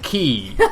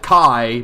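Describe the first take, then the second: First: The word is said with the vowel of "see". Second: The word is said with the vowel of "eye". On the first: "I'm going to pronounce it Key" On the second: "some call it Kai"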